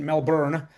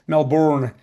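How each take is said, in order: First: Melbourne with a rhotic American r, Mel-burn. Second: Melbourne said the Australian way, Mel-bn, louder and falling; Aussie Melbourne. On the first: Mimicking American friends saying Melbourne in their accent. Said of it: "I don't know why I put on that accent". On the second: Correcting himself for the audience with his own Australian Melbourne. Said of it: "my American friends". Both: Shown as a demonstration.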